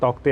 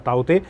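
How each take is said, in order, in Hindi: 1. नाम का उच्चारण k ध्वनि के साथ होता है। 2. नाम का उच्चारण k ध्वनि के बिना होता है। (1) "दोनों ही उच्चारण सही हैं" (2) "मैं इसे ताउते कहूंगा"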